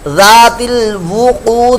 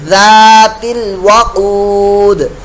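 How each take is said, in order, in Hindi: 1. पहला शब्द 'z' की आवाज़ से शुरू होता है। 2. पहला शब्द एक नरम 'dh' आवाज़ से शुरू होता है।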